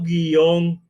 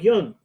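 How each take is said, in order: First: The word is said as two syllables. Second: The word is said as one syllable. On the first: This is how it is said in the Americas. "decimos guión ... como una palabra de dos sílabas" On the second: This is how it is said in Spain. "nosotros no decimos guión"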